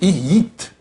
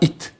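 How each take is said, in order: First: The word begins with a Y sound. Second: The word begins directly with a vowel. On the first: The speaker calls it right. "c'est yit" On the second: The speaker calls it wrong. "pas it"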